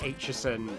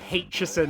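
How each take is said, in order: First: The name begins with a vowel, no H. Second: The name begins with an added H sound. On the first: The speaker calls it right. "my surname in particular is" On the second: The speaker calls it wrong. "they add an extra H that isn't there"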